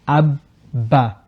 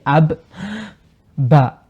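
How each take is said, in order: First: The doubled b is held without a break. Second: The b is released with a break between. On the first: The speaker calls it right. "Notice how I don't release from the ba" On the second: The speaker calls it wrong. "I don't say ab, ba. No"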